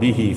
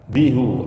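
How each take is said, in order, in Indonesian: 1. Suku kata terakhir diucapkan dengan vokal i. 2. Suku kata terakhir diucapkan dengan vokal u. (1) "Kalau dibaca angsanihi atau bihi fihi, itu sesuai dengan kaidah" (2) "kalau dibaca bihu atau angsanihu, itu sesuai dengan hukum asal"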